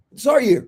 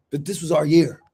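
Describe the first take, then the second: First: "our" hit higher and louder; stress on our. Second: Said in the usual way. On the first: Shown as a demonstration. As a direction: punch the word "our" up high.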